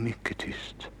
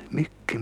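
First: "mycket tyst" dropped to a whisper. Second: Said in the usual way. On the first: Acted. Jaffa urges Fy to be very quiet, whispering.

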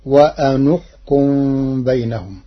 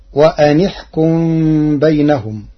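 First: "وأنحكم" with a u vowel on the nun; Warsh reading. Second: Said in the usual way. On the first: Shown as a demonstration. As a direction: say "وأنحكم" as wa-anuhkum. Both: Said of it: "بضم النون".

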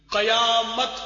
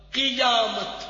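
First: "قیامت" as qayamat, a after q; loud demo of "قیامت" starting qa-; wrong pronunciation. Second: "قیامت" as qiyamat, short i after q; correct pronunciation. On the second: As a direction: say "قیامت" carefully starting qi-. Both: Shown as a demonstration. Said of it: "غلط".

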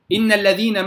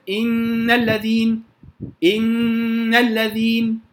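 First: Said in the usual way. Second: إن الذين slowly, long hum on the doubled noon; joined ghunna. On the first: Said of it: "مثلًا". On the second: Shown as a demonstration. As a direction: hold the noon of إن, then flow into الذين. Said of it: "لو هصل". (غنة حركتين في إن الذين وصلا)

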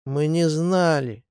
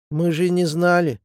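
First: Slow, lowered, defeated repetition; crestfallen. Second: Apologetic excuse. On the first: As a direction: let it drop heavily. Partisans repeat it, crestfallen. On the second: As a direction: explain it away eagerly. Partisans excuse themselves. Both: A narrator's reading.

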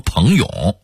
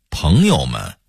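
First: "朋友" with full-toned second syllable; Hong Kong-Taiwan pronunciation. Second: Said in the usual way. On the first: Shown as a demonstration. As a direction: say "朋友" with yǒu given its full tone, higher. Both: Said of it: "非得说成".

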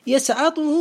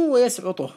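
First: يسعطه said yasʕaṭuhu; fatha form. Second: ويسعطه said wa-yasʕuṭuh; damma form. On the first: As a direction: put an a after the ʕayn in يسعطه. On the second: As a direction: put a u after the ʕayn in ويسعطه. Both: Shown as a demonstration. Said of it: "بالفتح والضم".

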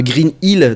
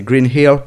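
First: Said in the usual way. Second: "Green Hill" in a true English accent. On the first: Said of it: "un accent français comme nous". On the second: Shown as a demonstration. Showing how Québec dubbers say it, English accent. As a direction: pronounce "Green Hill" as English, not French. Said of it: "Ils font vraiment avec l'accent".

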